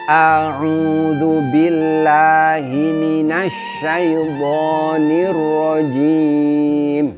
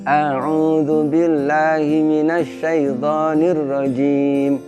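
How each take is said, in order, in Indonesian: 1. Vokalnya diucapkan dengan gerakan mulut yang lebar. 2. Vokalnya diucapkan dengan sedikit gerakan mulut. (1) "Yang pertama itu kita bisa e, melihat dengan jelas" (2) "saya akan membaca tetapi dengan mulut tidak begitu bergerak"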